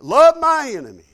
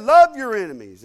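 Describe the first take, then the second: First: Loud, high, incredulous echo; indignant disbelief. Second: Much louder, punched Bible quote; emphatic command. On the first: Young believer balks at what he just read, loud indignant disbelief. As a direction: throw the command back, offended. His indignant reply to the verse. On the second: Preacher quotes Jesus to the congregation, loud emphatic command. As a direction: proclaim it as a firm command. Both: Retold or imitated.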